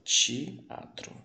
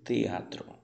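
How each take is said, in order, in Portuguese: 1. O t soa suave e chiado, como ch. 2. O t é um som de t simples e nítido. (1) "em português eu vou ler essa palavra teatro" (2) "Em espanhol, se diz teatro. O T é sempre T"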